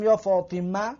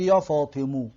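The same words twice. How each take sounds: First: یا فاطمه with the last vowel e kept; ending in e. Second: یا فاطمو with the last vowel rounded to o; ending in o. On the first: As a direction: keep the e in یا فاطمه. (یا فاطمه با فتحه در آخر) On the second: (یا فاطمو با ضمه در آخر) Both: Shown as a demonstration. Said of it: "دو نمود فریاد کرده میتونیم".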